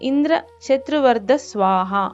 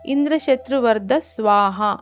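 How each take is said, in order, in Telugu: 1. పదబంధంలో ఒక భాగాన్ని సాగదీస్తారు. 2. పదబంధంలో ఏ భాగాన్నీ సాగదీయరు.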